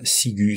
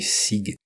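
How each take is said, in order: First: The word ends with an audible U sound. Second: The word ends on the G, U silent. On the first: This is how it is read with the diaeresis. The speaker calls it right. "c'est le U qu'on qu'on veut entendre" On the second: This is how it would be read without the diaeresis. The speaker calls it wrong. "s'il n'y avait pas de tréma, ... ça ferait"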